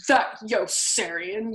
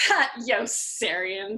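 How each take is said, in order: First: Very slow echo of their drawl; mocking echo. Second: Very slow drawn-out officers' voice; said more loudly. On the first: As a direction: throw it right back at them. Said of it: "Yossarian echoed". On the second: Acted. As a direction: lean on the name, teasing. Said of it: "they said more loudly".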